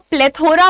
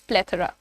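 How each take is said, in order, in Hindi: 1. बीच के अक्षर में पूरा 'o' स्वर है। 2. बीच के अक्षर में हल्का, कमज़ोर (reduced) स्वर है। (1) "ये वर्ड को प्लेथोरा बहुत सारे लोग बोलते हैं" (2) "but the pronunciation is प्लेथोरा"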